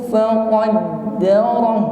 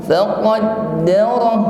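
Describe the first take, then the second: No difference in how they are said.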